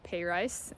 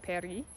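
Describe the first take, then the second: First: The first vowel sounds like 'pay'. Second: It has the usual English vowels. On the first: "some people pronounce it pay rice" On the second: "instead of Paris"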